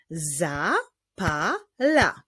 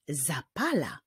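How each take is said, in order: First: "zapala" slowly as za, pa, la; three spaced beats in "zapala"; syllable by syllable. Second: Said in the usual way. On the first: Shown as a demonstration. Teacher solving a word riddle, "zapala" slowly built by syllable. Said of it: "Składa się z trzech sylab". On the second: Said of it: "czyli zapala".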